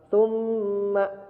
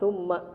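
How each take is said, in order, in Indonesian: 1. Mim bertasydid ditahan dengan dengung sengau yang panjang. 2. Mim bertasydid dipotong pendek, tidak ditahan. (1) "harus ditahan dua harokat" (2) "biasanya langsung aja summa, tidak ada ditahan"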